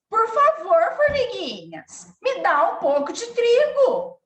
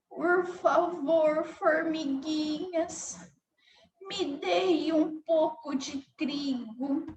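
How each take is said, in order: First: The voice sounds angry and harsh. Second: The voice sounds weak and feeble. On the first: The speaker feels angry. "Se ela tivesse com raiva" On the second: The speaker feels weak. "se a formiguinha estivesse com fraqueza"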